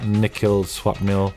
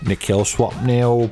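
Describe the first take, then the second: First: It is said in his natural voice. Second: It is said in a put-on British accent.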